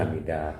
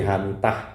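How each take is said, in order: First: The last syllable starts with a d sound. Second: The last syllable starts with a t sound. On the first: This is how the name is read in its home country. The speaker calls it right. "kalau dibaca yang benar Hamidah" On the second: This is how local people read the spelling. The speaker calls it wrong. "dosen-dosen yang ngabsen pasti Hamitah"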